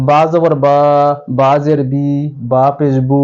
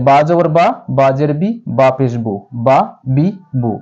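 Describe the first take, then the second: First: Vowels stretched long on বা, বি, বু; drawn-out wrong reading. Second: বা, বি, বু clipped short and crisp; quick short vowels. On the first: Teacher showing students how not to read, dragging the vowels. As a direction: drag each syllable out the wrong way. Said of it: "এভাবে টেনে পড়া যাবে না". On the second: Teacher showing students the right quick reading. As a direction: read each syllable quickly, no stretching. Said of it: "অবশ্যই দ্রুত পড়িতে হবে". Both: Shown as a demonstration.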